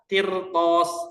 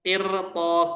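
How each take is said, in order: The two takes are said the same way.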